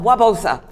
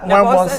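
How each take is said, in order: First: The name starts without any N sound. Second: The name starts with a clear N sound. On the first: The speaker calls it right. "The N is silent" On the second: The speaker calls it wrong. "Did I say that right?"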